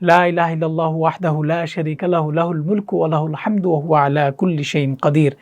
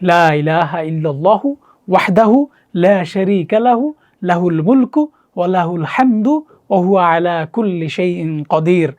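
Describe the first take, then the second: First: The phrase is recited at a faster pace. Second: The phrase is recited at a slower pace. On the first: "আমরা যদি আরেকটু তাড়াতাড়ি বলি" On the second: "এটাই আমরা বলি"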